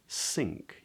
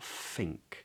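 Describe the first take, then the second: First: The word begins with an s sound. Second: The word begins with an f sound. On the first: "it's not an S. It's not sink" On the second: "It's not an F. Don't make that mistake"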